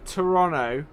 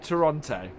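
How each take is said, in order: First: It is pronounced the way locals say it. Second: It is pronounced the way outsiders say it. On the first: The speaker calls it right. "being a native, then it's" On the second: The speaker calls it wrong.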